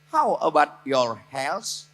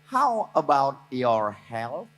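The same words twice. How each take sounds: First: The word health ends with an s sound. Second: The word health ends with a th sound. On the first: It sounds like asking about the listener's hell. The speaker calls it wrong. "Coba kalau nyebut health-nya dari S" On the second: It asks about the listener's health. The speaker calls it right. "T dengan H itu huruf tha. Contohnya health"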